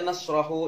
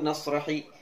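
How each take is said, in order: First: The word ends with an 'u' vowel. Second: The word ends with an 'i' vowel. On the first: "jangan dibaca" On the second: "jangan dibaca"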